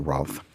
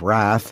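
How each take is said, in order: First: The word is said with a British pronunciation. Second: The word is said with an American pronunciation. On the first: "but the British say" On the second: "I would say, as I think John Steinbeck probably said"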